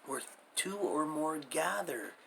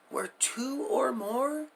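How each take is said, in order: First: Said in the usual way. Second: "Where two or more?" slow and higher, rising hard on "or"; questioning stress. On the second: Shown as a demonstration. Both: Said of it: "Do you see?".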